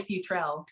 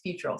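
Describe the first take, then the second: First: Futrell as people say it, "fyoo-TRELL"; common mispronunciation. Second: Futrell as "FYOO-trull", weak second syllable; family's own pronunciation. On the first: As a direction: say Futrell with a clear "trell" ending. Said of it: "people say Futrell, but it's". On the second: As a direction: say Futrell with the ending reduced to "trull". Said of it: "but it's Futrell". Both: Shown as a demonstration.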